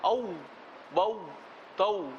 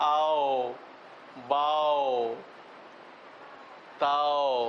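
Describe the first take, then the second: First: Each syllable ends in a rounded 'u' sound. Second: Each syllable ends in an open 'o' sound. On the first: The speaker calls it right. "হামজা ওয়াও জবর আউ" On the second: The speaker calls it wrong. "আমাদের দেশে করে কি, এরকম না বলে বলে আও বাও তাও। হবে না"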